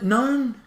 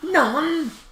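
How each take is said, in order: First: The vowel rhymes with bone. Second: The vowel rhymes with sun.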